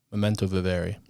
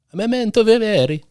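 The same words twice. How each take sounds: First: Said in the usual way. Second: Hammed-up Italian, high and loud; Italian accent. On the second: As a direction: belt it like a big Italian. Repeats phrase in big Italian voice.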